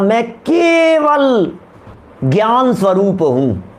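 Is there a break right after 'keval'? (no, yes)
yes. Keval is set apart from gyan by a break. I am of the nature of knowledge alone. "तो मैं सिर्फ और सिर्फ ज्ञान स्वरूप हूं"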